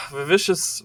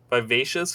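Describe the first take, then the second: First: "vivacious" with a short i in place of the long a; mispronounced word. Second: "vivacious" said vy-VAY-shus, long a; corrected pronunciation. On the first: Reader tripping over a word in the book, mispronounced "vivacious". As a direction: stumble on "vivacious", saying vi-VISH-us. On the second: Reader retrying a word from the book, corrected "vivacious". Second try at the stumbled word. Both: Real, not acted.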